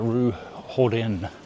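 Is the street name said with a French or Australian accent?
French. It is said with a French-style accent.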